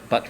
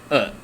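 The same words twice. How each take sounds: First: The final T is clearly released. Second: The final T is cut off in the throat.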